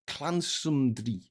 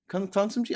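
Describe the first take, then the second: First: "Clansumdry" drawn out slowly, falling at the end; butchered pronunciation. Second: "Clansumdry" higher and questioning, rising; butchered pronunciation. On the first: Streamer attempting the Welsh birthplace name, butchered pronunciation. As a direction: sound out "Clansumdry" slowly, unsure of it. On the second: Streamer doubting his Welsh place name, butchered pronunciation. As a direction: restart and query "Clansumdry", pitched up. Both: Real, not acted. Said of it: "butchering that fucking pronunciation".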